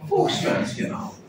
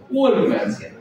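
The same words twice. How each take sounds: First: South Bombay accent, pitched far up, drawn out and breathy; mock the posh South Bombay kid saying Folksman's. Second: Said in the usual way. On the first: Shown as a demonstration. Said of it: "But the Sobo will call it as what?". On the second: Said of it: "Normal people".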